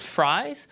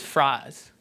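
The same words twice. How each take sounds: First: "fries" with a full gliding I vowel. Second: "fries" with a flat monophthong, frahz; Southern fries. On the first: Lecturer demonstrates mainstream US "fries", full diphthong. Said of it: "Speaker A says". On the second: Lecturer demonstrates Southern "fries", flattened vowel. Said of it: "speaker B says". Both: Shown as a demonstration.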